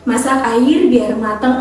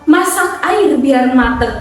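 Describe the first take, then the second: First: The pitch stays level with no clear rhythm. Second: The pitch rises and falls with clear rhythm. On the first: The speaker calls it wrong. "nggak lurus aja teman-teman, nggak gini" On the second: The speaker calls it right. "contohnya seperti itu"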